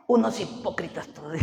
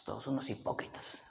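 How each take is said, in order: First: Imitated disdain, out in full voice; mock scornful verdict. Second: Very low, half-whispered grumble; muttered retold disdain. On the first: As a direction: repeat the scornful verdict aloud. Repeats wife's verdict louder. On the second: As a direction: mutter it under your breath, imitating disdain. Acts wife's dismissive verdict.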